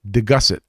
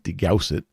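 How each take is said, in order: First: The name does not begin like 'degauss'. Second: The name begins like the word 'degauss'. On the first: The speaker calls it right. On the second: The speaker calls it wrong. "not Degaussett, because that's magnetic"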